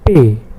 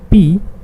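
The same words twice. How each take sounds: First: The letter is named the German way. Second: The letter is named the English way. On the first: "P in German" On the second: "P in English"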